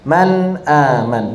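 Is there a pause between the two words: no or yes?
no. The words flow together without a break. This follows a reading tradition that does not pause. "mengalir, mengalir"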